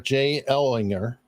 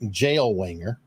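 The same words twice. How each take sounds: First: The name is said at a normal speed. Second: The name is said very quickly.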